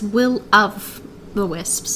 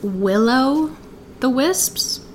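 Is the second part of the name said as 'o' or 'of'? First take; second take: of; o. First: The second part is said as 'of'. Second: The second part sounds like 'o', as in willow. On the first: The speaker calls it right. "but it's Will-of-the-Wisps" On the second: The speaker calls it wrong. "I totally thought it was Will-O-the-Wisps"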